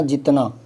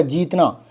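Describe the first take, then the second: First: जितना with a quick ji; short vowel. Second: जीतना with a stretched jee; long vowel. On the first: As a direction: go straight to the त in जितना. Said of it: "जी बोलते इतना". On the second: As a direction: draw out the ī in जीतना. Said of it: "बड़ी मात्रा कर दी". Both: Shown as a demonstration.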